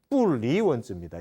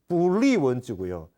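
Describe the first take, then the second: First: The syllable 'li' has a falling tone. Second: The syllable 'li' has a rising tone. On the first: Not setting up written words. "사성이고" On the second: Not departing from written words. "이성이고"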